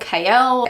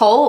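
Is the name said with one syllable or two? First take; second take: two; one. First: The name is said as two syllables. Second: The name is said as one syllable. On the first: "I know it's K L out loud" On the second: "I read it like Cole in my head"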